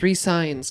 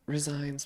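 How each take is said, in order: First: The middle consonant is a clear s sound. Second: The middle consonant is a z sound. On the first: The player signs a new contract. The speaker calls it right. "It's resigns" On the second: The player quits. The speaker calls it wrong. "not resigns"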